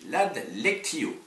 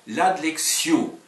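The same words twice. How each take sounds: First: The word is pronounced with classical Latin sounds. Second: The word is pronounced with French sounds. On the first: "je le prononce à la latine" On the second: "Si vous le prononcez à la française"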